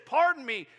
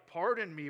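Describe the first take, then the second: First: "Pardon me" much louder and higher in a whiny protest; whining Gideon. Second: Said in the usual way. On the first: Retold or imitated. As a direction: push "Pardon me" up into an indignant whine. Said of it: "he goes into just whining". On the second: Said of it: "he's very polite".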